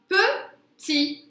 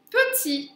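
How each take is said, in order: First: "Petit" split into pe, pause, ti; syllable by syllable. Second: Said in the usual way. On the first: Shown as a demonstration. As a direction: say "Petit" as two high, separate syllables. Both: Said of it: "On l'entend à la rime".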